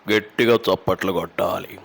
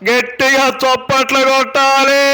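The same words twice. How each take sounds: First: The voice is at a normal everyday pitch. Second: The voice is high-pitched and sharp. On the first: It is said in ordinary conversation. "అదే మామూలుగా ... నార్మల్గా" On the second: It is said at a public rally. "ఇట్లా ఉంటుంది"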